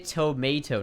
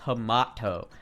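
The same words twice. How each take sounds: First: It is said with an American accent. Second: It is said with a British accent.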